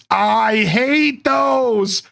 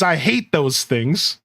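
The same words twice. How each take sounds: First: I HATE THOSE, every word stretched out slowly; drawn-out dread. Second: Said in the usual way. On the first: Retold or imitated. Streamer hamming up a viewer's chat comment, drawn out. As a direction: drag out "I hate those" for comic emphasis.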